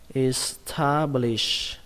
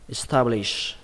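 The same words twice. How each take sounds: First: The word is said slowly, syllable by syllable. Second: The word is said quickly, at natural speed. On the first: "các bạn đọc là" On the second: "đọc nhanh là"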